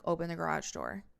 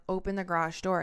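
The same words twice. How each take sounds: First: Said in the usual way. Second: Retold command, repeated more forcefully and louder; louder, firmer imitated order; insistent demand. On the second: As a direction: press the demand after a refusal. Repeated demand after being refused.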